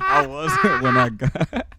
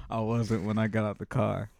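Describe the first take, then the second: First: Slow, high, through laughter; giggling and stoned; laughing. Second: Said in the usual way. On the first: Real, not acted. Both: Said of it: "I'm so stoned right now".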